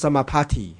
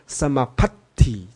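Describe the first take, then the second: First: The t is single, sounding like 'party'. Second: The t is doubled, with a short hold before it. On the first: The speaker calls it wrong. "不是Samapatti 啊，Party 变成开Party 了" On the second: The speaker calls it right. "你看看它有两个T……这跟我们念日文那个小字一样，应该念Samapatti 这样的Patti"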